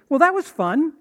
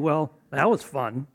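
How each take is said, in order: First: The tone sounds genuinely pleased and sincere. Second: The tone sounds dry, mocking and sarcastic. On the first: It really was fun. "one of those means that it really was fun" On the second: It wasn't fun at all. "one of those means that I was being sarcastic and it wasn't fun at all"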